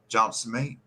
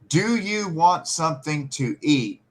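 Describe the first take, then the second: First: The words are squashed into a few syllables. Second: Every word is pronounced clearly and separately.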